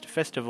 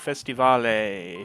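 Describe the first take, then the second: First: It is said with a plain English pronunciation. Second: It is said with a foreign-sounding accent.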